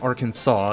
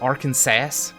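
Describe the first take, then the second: First: The name is said the local, unspelled way. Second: The name is read out as it is spelled. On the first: This is how people who live there say it. The speaker calls it right. "It's it's pronounced Arkansas" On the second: This is how people outside the United States say it. The speaker calls it wrong. "pronounces it Arkansas, like it's spelled"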